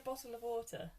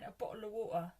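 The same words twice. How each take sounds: First: It is said with clear, posh t sounds. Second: It is said London-style, with the t's dropped.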